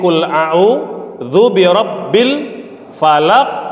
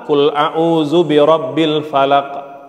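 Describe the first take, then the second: First: The final q sound bounces out clearly. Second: The final q sound bounces only very faintly. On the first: "Ada ada pantulannya" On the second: "mantulnya terlalu pelan. Ada pantulan cuma terlalu tipis"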